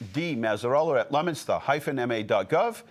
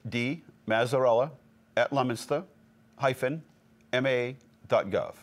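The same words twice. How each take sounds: First: It is said at normal speed. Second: It is said slowly.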